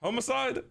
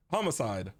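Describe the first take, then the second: First: "Homicide" as HOH-muh-side, rising; long-o pronunciation. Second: "Homicide" as HAH-muh-side, falling; open-vowel pronunciation. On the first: Streamer unsure how to say it, "Homicide" as questioning HOH-muh-side. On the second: Streamer settling how to say it, "Homicide" as low, firm HAH-muh-side. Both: Shown as a demonstration. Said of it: "Is it homicide or homicide?".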